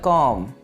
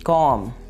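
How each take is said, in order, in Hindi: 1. अंत में b की ध्वनि साइलेंट है। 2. अंत में b की ध्वनि साइलेंट है।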